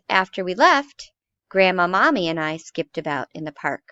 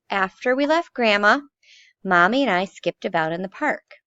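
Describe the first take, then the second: First: The first pause comes after the word left. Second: The first pause comes after the word Grandma. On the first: The grandmother skipped in the park with them. "The next one says" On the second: They left the grandmother behind. "in the first sentence it says"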